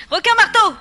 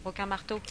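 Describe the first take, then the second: First: Much higher, much louder scream; alarmed squeal at the shark; panicked shriek. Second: Said in the usual way. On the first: Acted. Names the shark, then shrieks it.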